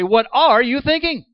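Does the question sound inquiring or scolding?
scolding. It sounds like an incredulous, scolding challenge. The speaker thinks the other person acted foolishly. "Doesn't mean nearly the same thing"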